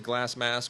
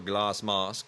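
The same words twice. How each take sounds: First: It is said in the speaker's ordinary accent. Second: It is said in a put-on British accent.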